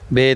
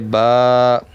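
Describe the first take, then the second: First: It is said the Urdu way, ending in 'e'. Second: It is said the Arabic way, ending in 'a'.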